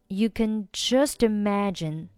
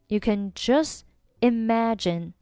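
First: Just links smoothly into imagine. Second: Just ends with dropped t, separate from imagine. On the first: "如果是连读就是" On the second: "如果不连就是"

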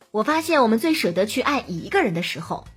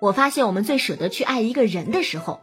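First: The stress falls on 一个. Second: The stress falls on 人. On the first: Usually we love many people at once. "而如果你去强调数字，强调只爱一个人" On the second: When not in secret love, we love animals instead. "比如你把重音放在人字上，就会怎么听怎么别扭"

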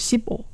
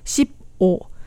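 First: The syllables are run together, final p linking. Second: The syllables are said separately, without linking.

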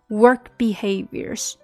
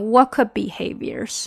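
First: The k is light, only a puff of air. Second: The k is fully and strongly pronounced. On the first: The speaker calls it right. "这个k 也会轻一些" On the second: The speaker calls it wrong. "千万不能读成work behaviors 啊"

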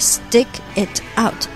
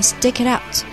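First: The words are said separately, each t clear. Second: The words run together with soft, linked t sounds. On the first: "所以整个stick it out" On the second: "就会变成stick it out"

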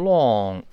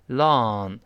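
First: It is said with rounded, pouted lips. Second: It is said with relaxed, unrounded lips. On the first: "英式发音读成long，它有个撅嘴的动作" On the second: "美式发音呢这嘴就舒服多了，没有撅起嘴来动作"

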